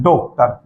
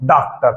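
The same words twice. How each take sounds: First: डॉक्टर with the rounded English o; correct pronunciation. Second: डॉक्टर with a flat a, like daktar; wrong pronunciation. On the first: Teacher repeating the right doktar for students. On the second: Teacher contrasting the wrong daktar. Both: Shown as a demonstration. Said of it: "न कि".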